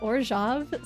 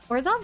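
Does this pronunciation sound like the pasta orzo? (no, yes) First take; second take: no; yes. First: The name does not sound like orzo. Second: The name sounds like the word orzo. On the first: The speaker calls it right. "sounds cool" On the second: The speaker calls it wrong. "sounds like some kind of pasta"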